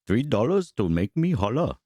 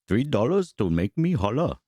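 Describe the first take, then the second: First: It is said in a put-on Asian accent. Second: The same.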